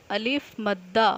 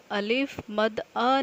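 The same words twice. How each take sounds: First: अलिफ मद्दा with मद्दा run together, doubled द and long final आ; correct joined reading. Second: अलिफ मद अ split into three separate pieces; wrong broken reading. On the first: Teacher to young students showing the right way: अलिफ मद्दा joined smoothly. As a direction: say अलिफ मद्दा as one joined name, stressing मद्दा. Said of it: "आपने इसको अलग-अलग तोड़ के नहीं पढ़ना".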